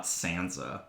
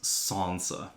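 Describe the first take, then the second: First: Sansa with a short a, as in sand; American-style pronunciation. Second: Sansa with a long ah, 'Sahnsa'; British-style pronunciation. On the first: Co-host giving the wrong name, short-a Sansa. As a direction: say Sansa with the vowel of cat. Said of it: "not Sansa". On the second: Co-host giving the supposedly correct name, long-a Sansa. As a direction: open the first vowel of Sansa to ah. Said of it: "I'm pretty sure it's pronounced". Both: Shown as a demonstration.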